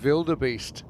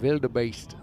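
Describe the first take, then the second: First: It is said with an ordinary English pronunciation. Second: It is said with a South African pronunciation.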